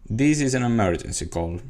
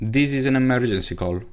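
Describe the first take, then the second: First: The pitch falls at the end. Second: The pitch stays level throughout. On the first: "the tone of voice going down" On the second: "I used the same tone of voice for all the sentence"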